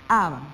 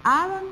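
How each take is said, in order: First: "aban" dropped low and falling; "aban" closed down low; answering rhyme ending. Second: "Aban" pitched high and rising; "Aban" lifted up as a question; stressed rhyme ending. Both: Shown as a demonstration. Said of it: "rima con guiaban".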